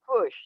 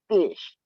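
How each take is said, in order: First: The vowel is an 'uh' sound. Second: The vowel is a short 'ih' sound. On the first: "It takes on the U sound" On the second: "it'll be something that um just changes"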